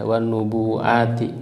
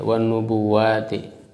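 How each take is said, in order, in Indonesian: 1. Kata ini mengandung hamzah, tanpa glide w. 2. Kata ini mengandung glide w, tanpa hamzah.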